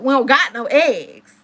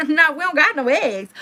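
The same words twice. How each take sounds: First: Each word laid down slowly; slow emphatic. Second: Laughing, a bit higher and louder; half-laughing retelling; laughing repeat. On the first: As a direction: drag out the disbelief. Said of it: "But guess what?". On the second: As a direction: laugh through the disbelief. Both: Real, not acted.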